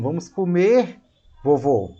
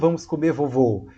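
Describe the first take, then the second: First: There is a short pause before the last word. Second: The words run together with no pause at all. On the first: The grandfather is being invited to eat. The speaker calls it right. "você está dizendo" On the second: The grandfather himself is what will be eaten. The speaker calls it wrong. "Você não está dizendo"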